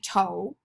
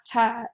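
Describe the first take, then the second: First: The word ends with a long 'oh' vowel. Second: The word ends with a short 'uh' vowel. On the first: "it should be a long O" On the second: "if it was the short U"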